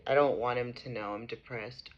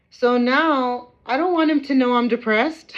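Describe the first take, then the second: First: Low and soft, drained; quiet. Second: High and loud, near tears; upset outburst. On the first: Mother repeating her wish to viewers, quiet and drained. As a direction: let it sink, worn out. Same words, quiet after rant. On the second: Mother venting about the CPS worker, loud and upset. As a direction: force it out, raw and hurt. Upset rant, later repeated low. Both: Real, not acted.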